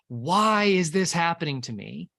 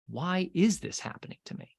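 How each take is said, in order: First: The stress is on the word why. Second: The stress is on the word is.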